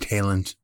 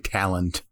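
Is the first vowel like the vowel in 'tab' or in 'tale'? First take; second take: tale; tab. First: The first vowel sounds like 'ale' in tale. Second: The first vowel sounds like 'a' in tab. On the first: The speaker calls it wrong. "I never say talent" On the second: The speaker calls it right. "I say talent. Like a normal human"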